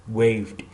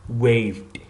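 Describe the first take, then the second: Both takes have the same delivery.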